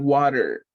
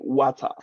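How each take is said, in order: First: The middle t is a soft, quick flap. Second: The middle t is crisp and clearly released. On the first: "in American English, we say water" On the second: "We don't say water"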